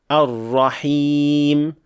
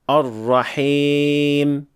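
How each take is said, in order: First: The final long vowel is a pure 'ee'. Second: The final long vowel is tilted toward 'e'. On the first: The speaker calls it right. "as a correct Ya without imala" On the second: The speaker calls it wrong.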